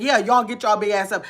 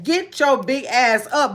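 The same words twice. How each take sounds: First: Said in the usual way. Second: Slow, each word leaned on in GET YOUR BIG ASS UP; emphatic slogan. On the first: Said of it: "I didn't leave it there saying". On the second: Shown as a demonstration. Creator stating her page's slogan to herself, emphatic. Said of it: "I said, with the emphasis on me".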